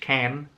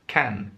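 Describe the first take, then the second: First: The word is said in an American accent. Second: The word is said in a British accent. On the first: "In American English, can" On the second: "this is British English pronunciation"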